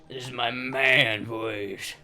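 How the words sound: It is said in a deep put-on man voice.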